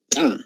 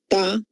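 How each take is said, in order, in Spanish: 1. Se mantiene y luego estalla con fuerza. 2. Se suelta de forma simple, sin estallido.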